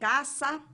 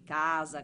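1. La S tra le vocali è sorda. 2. La S tra le vocali è sonora. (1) "pronunciate come vedete con una S aspra" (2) "possiamo tranquillamente dire anche casa"

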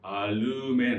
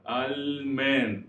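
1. Lの音の後に余分なu母音が入る。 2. Lの音は母音なしで、そのまま続く。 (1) "うの母音が入ってしまって、アルメンってこうなってしまうんですね" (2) "すぐ行かないといけない"

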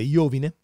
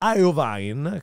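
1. Il nome si pronuncia con suoni italiani. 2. Il nome si pronuncia con suoni dell'inglese americano. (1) "in italiano sarebbe Iovine" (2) "credo che si pronunci così il suo bizzarro nome"

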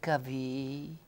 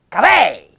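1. La parola finisce con la vocale 'ee'. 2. La parola finisce con la vocale 'eh'. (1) "a Rovereto si dice cavì" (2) "a Trento si dice cavè"

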